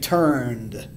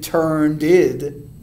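First: The ending is a blended d sound. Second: The ending is a separate id syllable. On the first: The speaker calls it right. "We say turned, blended" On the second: The speaker calls it wrong. "We don't say turned id"

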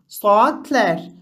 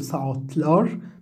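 First: The ending is said with a light 'ler'. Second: The ending is said with a heavy 'lar'. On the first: The speaker calls it right. "من المفخم إلى المرقق" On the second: The speaker calls it wrong. "لا نقول ساعت لار"

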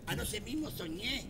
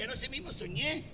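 First: The line is said at a softer volume. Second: The line is said at a louder volume. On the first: The speaker calls it wrong. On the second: The speaker calls it right.

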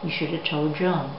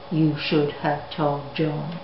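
First: The words are run together, with 'should have' reduced and the d dropped. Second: The words are said separately, each one fully and evenly pronounced. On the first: The speaker calls it right. "So we get told John" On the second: The speaker calls it wrong. "So I certainly wouldn't say"

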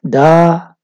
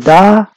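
First: The syllable is said on a low tone. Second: The syllable is said on a high tone. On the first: The action will happen in the future. "the low tone expresses future" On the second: The action happened in the past. "A high tone ... expresses past"

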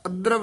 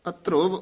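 First: An 'a' vowel is heard before the final v. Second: An 'u' vowel is heard before the final v. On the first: The speaker calls it wrong. "ਅਧਰਵ ਨਹੀਂ ਕਹਿਣਾ ਹੈ" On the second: The speaker calls it right. "ਇਹ ਅਧਰੁਵ ਉਚਾਰਨ ਕਰਨਾ"

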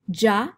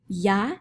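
First: It begins with an English J sound. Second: It begins with a soft English Y sound. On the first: "and then our fancy schmancy sound" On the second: "let's try these syllables first with the Y sound"

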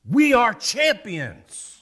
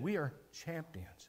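First: The words sound firm and sure. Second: The words sound stunned and unsure. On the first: The speaker is sure of the victory. "with assertiveness that I just said it" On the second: The speaker can hardly believe the victory. "As if he didn't believe it"

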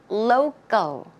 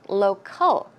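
First: The middle consonant is a softer 'g' sound. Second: The middle consonant is a clear 'k' sound. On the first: The speaker calls it right. "the C in this case, it's more of a g, g sound" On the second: The speaker calls it wrong. "I have seen a lot of people pronouncing that word as local"

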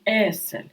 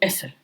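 First: The first vowel is long. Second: The first vowel is short. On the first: The speaker calls it right. "ми кажемо есель. Вимовляється довше" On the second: The speaker calls it wrong. "Ми не кажемо есель"

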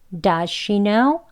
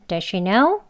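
First: 'Does' is said strongly and clearly. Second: 'Does' is said weakly and quickly. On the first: "does 하고 턱 아래로 내려서 명확하게 발음" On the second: "여기에 강세를 두지 않고요"

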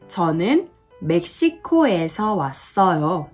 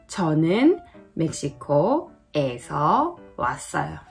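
First: It is said smoothly, syllables flowing together. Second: It is said choppily, syllables separated.

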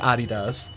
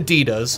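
First: The brand name is said the non-American way. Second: The brand name is said the American way. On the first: "rest of the world says Adidas" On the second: "we say Adidas"

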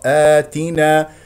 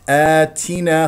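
First: The t sound is crisp with little breath. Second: The t sound carries an audible puff of breath. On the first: The speaker calls it right. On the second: The speaker calls it wrong.

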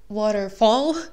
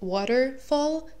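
First: The final syllable is stressed. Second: The final syllable is unstressed. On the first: The speaker calls it wrong. "and not waterfall" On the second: The speaker calls it right. "the last syllable, even though it's of course quite sharp, it's actually not accented"

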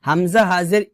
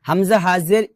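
The two takes are said the same way.

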